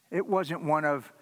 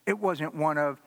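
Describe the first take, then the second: No difference in how they are said.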